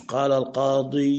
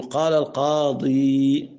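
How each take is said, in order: First: القاضي dragged out into "-dee-yuu"; wrong heavy ending. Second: القاضي ending on a long, pure "ee"; correct silent ending. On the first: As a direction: add a long, droning u after the ee of القاضي. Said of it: "مش". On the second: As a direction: hold the final ee of القاضي, adding no u vowel. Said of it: "فإيه؟ يقول". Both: Shown as a demonstration.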